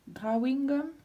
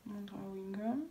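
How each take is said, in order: First: Drawing gum said the English way, a little higher; mock English accent on "Drawing gum". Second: Said in the usual way. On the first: Showing her daughter a mock English accent on "Drawing gum". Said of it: "avec l'accent anglaise".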